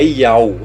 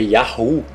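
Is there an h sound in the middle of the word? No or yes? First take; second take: no; yes. First: It is said without an h sound inside. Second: It is said with an h sound inside. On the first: The speaker calls it wrong. "não é Yau" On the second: The speaker calls it right. "esse rei tem som de H, não é Yau, é Yahu"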